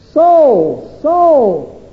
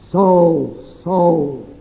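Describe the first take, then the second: First: It sounds bewildered and baffled. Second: It sounds grave, like a judge sentencing.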